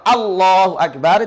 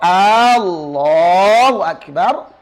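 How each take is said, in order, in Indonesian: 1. Ini diucapkan sebagai pernyataan biasa. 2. Ini diucapkan sebagai pertanyaan. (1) "itu kalimat berita" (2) "itu adalah kalimat tanya"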